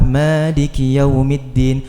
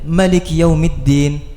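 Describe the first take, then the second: First: The first vowel of Malik is long. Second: The first vowel of Malik is short. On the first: "panjang kan dalam Al-Fatihah" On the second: "dalam riwayat yang lain namanya pendek"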